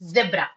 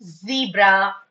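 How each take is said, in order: First: "zebra" said as zeb-ra; short vowel in "zebra"; first syllable of "zebra" like web; British pronunciation. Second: "zebra" said as zee-bra; long ee in "zebra"; first syllable of "zebra" rhymes with see; American pronunciation. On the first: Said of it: "if you are following British English". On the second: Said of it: "if you are following American English". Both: Shown as a demonstration.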